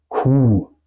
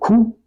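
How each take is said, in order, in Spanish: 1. La vocal u se pronuncia larga. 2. La vocal u se pronuncia corta. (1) "Porque tengo después una H" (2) "No digo Q"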